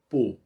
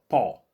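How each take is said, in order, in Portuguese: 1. A vogal é fechada. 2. A vogal é aberta. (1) "Vamos pensar no fechado" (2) "Vamos começar com o O aberto"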